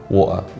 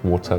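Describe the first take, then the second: First: The middle T is dropped. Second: The middle T is clearly pronounced. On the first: The speaker calls it wrong. "sounds like you've swallowed half the word" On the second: The speaker calls it right. "the proper pronunciation is water with a T"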